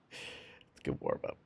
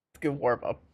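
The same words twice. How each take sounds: First: Breathy whisper, slowed down. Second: Said in the usual way. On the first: Shown as a demonstration. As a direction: hush it like a secret. Repeats line, then whispers it.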